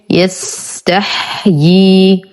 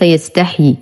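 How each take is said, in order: First: يستحيي very slowly, ending "yas-tah-yii"; correct pronunciation. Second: يستحيي quickly with one ya, "yastahi"; mispronunciation demo. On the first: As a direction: articulate both ya sounds at the end of يستحيي. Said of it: "الياء الأولى مكسورة والثانية ساكنة". (يستحيي ببطء بياءين، مكسورة ثم ساكنة) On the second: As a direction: merge the ending of يستحيي into one "hii". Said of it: "وليس". (يستحيي بياء واحدة خطأً) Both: Shown as a demonstration.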